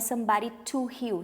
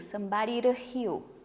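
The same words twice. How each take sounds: First: The t in 'to' is a clear hard t. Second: The t in 'to' sounds like a quick r. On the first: The speaker calls it wrong. "isso aqui não é somebody to heal" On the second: The speaker calls it right. "normalmente essa ligação é feita com som de R"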